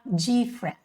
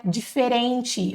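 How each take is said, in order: First: "different" shortened to two syllables, "DIF-rent"; correct English pronunciation. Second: "diferente" with four syllables and a soft "chi" ending; wrong Portuguese-style pronunciation. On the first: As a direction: say "different" without the middle vowel, stressed at the start. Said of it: "Mas você vai falar different". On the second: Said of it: "Peguem aqui essa pronúncia, não é". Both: Shown as a demonstration.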